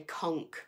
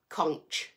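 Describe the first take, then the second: First: It uses the American pronunciation. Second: It uses the speaker's local pronunciation. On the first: "I think in America, say conch" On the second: "We say conch over here"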